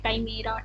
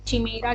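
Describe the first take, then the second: First: The word begins with a 'k' sound. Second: The word begins with a 'ch' sound.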